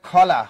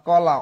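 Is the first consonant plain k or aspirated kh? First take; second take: aspirated kh; plain k. First: The first consonant is an aspirated kh. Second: The first consonant is a plain k. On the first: "অনেক অঞ্চলে এটাকে বলে খলা" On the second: "ক লয়কাল্লা কলা"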